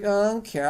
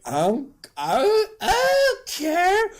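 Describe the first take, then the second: First: Said in the usual way. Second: High, drawn-out fake crying; hammed-up whimper, stretched and squeaky; mock tearful defiance. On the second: Paul told baby will die.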